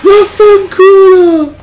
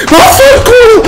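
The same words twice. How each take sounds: First: Loud, high "Vaffanculo!" stretched slow; drawn-out furious scream. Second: Loud, much higher "Vaffanculo!" spat out fast; furious scream. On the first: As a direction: drag out the last scream in despair. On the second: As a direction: scream it in rage. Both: Real, not acted. Repeated frustrated screams at game.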